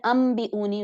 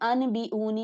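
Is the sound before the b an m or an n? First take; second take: m; n. First: An m sound is said before the b. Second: An n sound is said before the b. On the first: The speaker calls it right. "नून को मीम से रिप्लेस कर देते हैं" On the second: The speaker calls it wrong. "अनबिऊनी नहीं हम फिर पढ़ते हैं"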